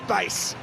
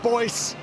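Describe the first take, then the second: First: The name is said with an 'ay' vowel. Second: The name is said with an 'oy' vowel. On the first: The speaker calls it right. "it's bass" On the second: The speaker calls it wrong. "the correct pronunciation is not Boyce"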